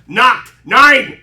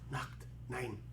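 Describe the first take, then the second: First: It is said in a harsh, forceful voice. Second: It is said in a soft, gentle voice. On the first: "Instead of" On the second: "it's just"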